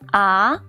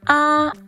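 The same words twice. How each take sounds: First: The pitch rises from middle to high. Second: The pitch stays high and level. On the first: "Ah is the second tone. The second tone is the rising tone" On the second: "ah is the first tone. The first tone is the highest"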